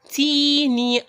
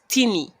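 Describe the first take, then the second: First: The first vowel is held long. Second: The first vowel is kept short. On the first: The speaker calls it right. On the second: The speaker calls it wrong.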